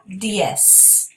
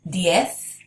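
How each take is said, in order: First: It ends with an s sound. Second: It ends with a th sound. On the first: "like an S sound" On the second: "with a T H at the end"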